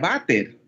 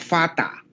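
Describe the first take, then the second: First: The word begins with a V sound. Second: The word begins with an F sound. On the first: The speaker calls it wrong. "no se pronuncia Vater" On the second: The speaker calls it right. "sino Fata. ... ahí sí la F de la inglés father"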